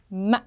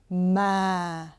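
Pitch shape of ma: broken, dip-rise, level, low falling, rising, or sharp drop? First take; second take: broken; low falling. First: The pitch breaks sharply with a nasal sound. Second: The pitch starts low and falls lower. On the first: "콧소리를 이용해서 급격하게 빡 꺾어줍니다" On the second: "평음보다 조금 낮게 시작해서 더 낮게 내리셔야 돼요"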